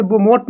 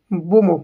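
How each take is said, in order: First: "बोमोट" with the final T sounded; wrong pronunciation. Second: "बोमो" with a silent final T; correct pronunciation. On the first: Teacher showing students what not to say, "बोमोट" with a sounded T. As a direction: end "बोमोट" on a hard ट. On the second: Teacher correcting students on the word, "बोमो" with no T. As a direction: end "बोमो" on an open O. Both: Shown as a demonstration. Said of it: "इसे बोमोट नहीं बोलेंगे".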